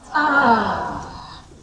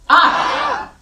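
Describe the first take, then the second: First: It sounds relaxed and calm. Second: It sounds tense and agitated.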